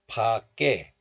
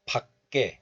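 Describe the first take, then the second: First: 밖에 as open pa plus tense kke; linked pronunciation. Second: 밖에 as short pak, then kke; closed first syllable. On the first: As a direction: leave the first syllable of 밖에 open, pa-kke. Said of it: "both are fine". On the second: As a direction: stop 밖에 on k before kke. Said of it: "pronouncing this word as 박". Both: Shown as a demonstration.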